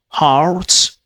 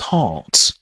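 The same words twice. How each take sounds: First: It is said with the American final r sound. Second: It is said in a British accent without r.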